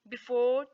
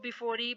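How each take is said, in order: First: The word ends on the r sound. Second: The word ends with an extra ee vowel. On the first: The speaker calls it right. "बल्कि" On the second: The speaker calls it wrong. "ऐसे नहीं पढ़ेंगे"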